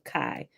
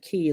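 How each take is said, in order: First: The name has an 'eye' vowel sound. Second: The name has an 'ee' vowel sound. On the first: "I think I like Kai" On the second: "I hear it being pronounced both ways"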